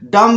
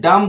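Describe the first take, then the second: First: The word ends with an audible b sound. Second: The word ends on m with no b sound. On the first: The speaker calls it wrong. "डम्ब नहीं बोलना है" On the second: The speaker calls it right. "डम बोलना है"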